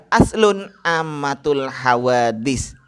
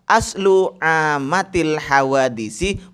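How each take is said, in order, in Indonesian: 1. Kata pertama berakhir dengan bunyi n. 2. Kata pertama berakhir tanpa bunyi n. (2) "yang betul adalah"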